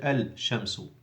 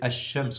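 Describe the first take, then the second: First: The l is clearly pronounced before sh. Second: The l merges into a doubled sh sound. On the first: The speaker calls it wrong. "you don't say al-shamsu" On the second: The speaker calls it right. "So you say ash-shamsu"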